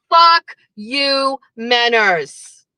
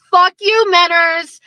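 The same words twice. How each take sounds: First: Said in the usual way. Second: Loud, raised fuck you; shouted curse. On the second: Real, not acted. Shouting fuck you at Menners on his show, loud. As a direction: yell it at him.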